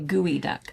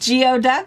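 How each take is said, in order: First: It is said as gooey-duck. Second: It is said as spelled, gee-oh-duck. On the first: The speaker calls it right. "Say gooey duck" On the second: The speaker calls it wrong. "That is not how you say it"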